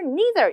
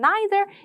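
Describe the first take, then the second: First: It is said in an American accent. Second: It is said in a British accent.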